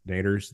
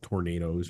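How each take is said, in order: First: The word is clipped, dropping its first syllable. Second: The word is said in full with all syllables. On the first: This is how locals in one region say it. "We don't pronounce the whole thing in Missouri" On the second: This is the standard full form of the word. "They're not called tornadoes"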